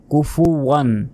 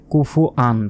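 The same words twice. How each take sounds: First: কুফুয়ান with a clear w glide and raised pitch; correct pronunciation. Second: কুফুয়ান said plainly, the wrong way; the incorrect কুফুয়ান; wrong pronunciation. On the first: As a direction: say কুফুয়ান carefully with the w. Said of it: "অবশ্যই এইভাবেই উচ্চারণ করতে হবে". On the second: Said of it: "কুফুয়ান নয়". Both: Shown as a demonstration.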